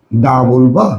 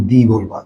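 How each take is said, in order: First: "দা" with an open "ah" vowel. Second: "দি" with an "ee" vowel. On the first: Teacher asks students to choose, "দা" said as "daa". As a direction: say "দা" as "daa", rising into a question. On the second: Teacher offers the other choice, "দি" said as "dee". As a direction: say "দি" as "dee", falling to close the question. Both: Shown as a demonstration. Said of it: "এটার উচ্চারণ তুমি কি".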